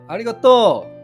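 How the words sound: It is said with a Kansai accent.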